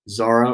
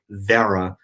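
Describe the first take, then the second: First: It is said in the speaker's ordinary accent. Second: It is said in a New York accent.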